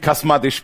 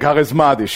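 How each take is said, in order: First: The word is said without the middle 'ris' syllable. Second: The word is said with the middle 'ris' syllable. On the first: The speaker calls it wrong. "hat mal eine Frau zu mir gesagt, bist du auch chasmatisch?" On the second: The speaker calls it right. "Nee, charismatisch"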